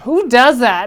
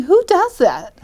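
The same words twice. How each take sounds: First: Louder, less high repeat of the disbelief; disbelieving. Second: High, loud disbelieving outburst; incredulous. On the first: Law student wondering about the man: loud indignant disbelief. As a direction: press the question home with indignation. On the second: To herself, seeing a man with liquor: high incredulous outburst. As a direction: voice jumps up in shock at the stranger. Incredulous thought about stranger. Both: Retold or imitated.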